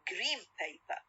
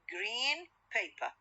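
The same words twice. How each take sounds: First: Green ends with an M sound. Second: Green ends with a clear N sound. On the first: "When I pronounce them rapidly ... in the connected speech ... Into M sound" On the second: "لوحدهم green و paper"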